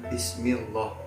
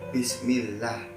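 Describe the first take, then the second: First: The L is heavy and full in the mouth. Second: The L is light and thin. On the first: The speaker calls it wrong. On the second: The speaker calls it right. "Ini yang dinamakan lam tarkik"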